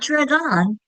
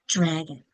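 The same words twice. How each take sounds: First: The second syllable has a full, clear vowel. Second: The second syllable has a weak schwa vowel. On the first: The speaker calls it wrong. "It's not dragon" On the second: The speaker calls it right. "That second syllable gets weaker, the vowel gets lazy"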